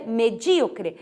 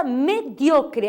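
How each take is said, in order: First: Medíocre said me-DJÍ-o-cre; Portuguese stress. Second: Mediocre said me-DIO-cre; stress on DIO. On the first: Teacher giving the Portuguese form, medíocre stressed on DÍ. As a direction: lean on DÍ in medíocre. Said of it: "em português é medíocre". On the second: Teacher showing the tonic syllable, mediocre stressed on DIO. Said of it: "a sílaba tônica é dio". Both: Shown as a demonstration.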